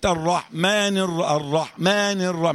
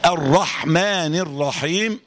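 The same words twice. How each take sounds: First: "الرحمن" with a weak, skimmed haa; slow "الرحمن" lacking full breath on haa; haa shortchanged. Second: Very slow "الرحمن" with long airy haa; stretched, careful "الرحمن الرحيم"; correct full haa. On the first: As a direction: give the haa in "الرحمن" less than its due. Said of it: "بس ما جبتش حق". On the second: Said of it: "صح". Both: Shown as a demonstration.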